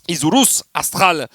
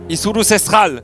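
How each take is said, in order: First: The second word starts with an 'a' sound. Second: The second word starts with an 'e' sound. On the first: The speaker calls it wrong. "tu dis astral à chaque fois" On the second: The speaker calls it right. "en espagnol les étoiles c'est estrellas"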